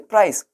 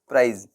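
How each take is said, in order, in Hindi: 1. यह शब्द फुसफुसाती हुई 's' की आवाज़ से खत्म होता है। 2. यह शब्द गुनगुनाती हुई 'z' की आवाज़ से खत्म होता है। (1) "क्या प्रोनाउंसिएशन होना चाहिए?" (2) "लेकिन क्या प्रोनाउंसिएशन उनका क्या होता है?"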